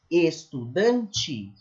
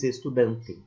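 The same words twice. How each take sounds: First: The final t is palatalized, like ch. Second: The final t is plain, not palatalized. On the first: The speaker calls it right. "Tanto é um i que eu palatalizo o t" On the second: The speaker calls it wrong. "Ninguém diz estudante"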